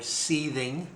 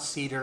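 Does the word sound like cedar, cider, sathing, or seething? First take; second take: seething; cedar. First: The word is said like 'seething'. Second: The word is said like 'cedar'. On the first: "You may mispronounce it another way, or seething" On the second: "No, it's not cedar"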